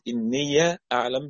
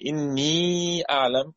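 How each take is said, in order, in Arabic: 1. تنتهي الكلمة الأولى بـ 'iya' قبل الكلمة التالية. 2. تنتهي الكلمة الأولى بياء مدّ طويلة. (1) "بالفتح" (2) "مثبتة ساكنة"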